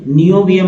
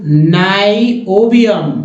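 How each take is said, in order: First: नियोबियम misread as "ni-o-bium"; short "ni" opening on नियोबियम; wrong reading. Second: नाइओबियम drawn out slowly, "nai-o-bium"; correct reading. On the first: Teacher rejecting a reading for learners, wrong reading. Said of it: "नियोबियम नहीं". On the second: Teacher showing learners how to read it, correct reading. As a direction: slowly open नाइओबियम with an EYE vowel. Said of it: "ऐसे ही पढ़ते हैं". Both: Shown as a demonstration.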